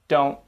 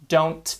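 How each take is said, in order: First: The final T is held, not released. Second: The final T is fully released. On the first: "they tend to say" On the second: "rather than"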